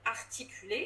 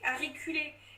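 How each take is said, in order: First: Every consonant is pronounced clearly. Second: The T sound is blurred or missing. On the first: "Par exemple" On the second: "Si tu dis pas bien ton, ton T"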